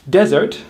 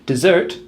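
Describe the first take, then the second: First: "Desert" as DEZ-ert, rising; stress on first syllable. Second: "Dessert" as di-ZERT, rising; stress on second syllable. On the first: Teacher defining the big sandy thing, first syllable stressed. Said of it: "has the stress on the first syllable". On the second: Teacher defining the delicious thing, second syllable stressed. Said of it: "stress on the second syllable". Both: Shown as a demonstration.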